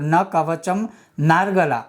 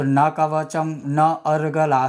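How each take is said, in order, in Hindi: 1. आखिरी शब्द एक साथ जुड़कर एक हो जाते हैं। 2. आखिरी शब्द अलग-अलग शब्दों की तरह बोले जाते हैं। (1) "जो लिखा हुआ है आप वैसे भी बोल सकते हो" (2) "आप ऐसे भी बोल सकते हो"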